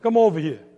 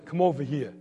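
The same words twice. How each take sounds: First: Loud Brooklyn dad's summons; punched-up Brooklyn father; Brooklyn accent. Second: Father's restrained Brooklyn summons; understated Brooklyn impression; Brooklyn accent. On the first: Acted. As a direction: order him over in firm, louder Brooklyn. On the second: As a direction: say it like a Brooklyn dad, unraised. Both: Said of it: "in his best Brooklyn".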